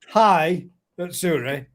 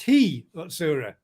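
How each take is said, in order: First: The first syllable sounds like 'high'. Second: The first syllable sounds like 'hee'. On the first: The speaker calls it wrong. "it's not hi Utsuri" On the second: The speaker calls it right. "it's he Utsuri"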